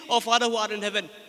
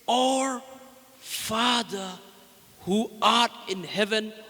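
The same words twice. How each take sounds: First: The phrase is said quickly, without lingering. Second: The phrase is said slowly, word by word. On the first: The words have no depth or value. The speaker calls it wrong. "if you say randomly, if you say quickly" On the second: Each word reaches the heart deeply. The speaker calls it right. "when you say it slowly, let each word sing into your heart"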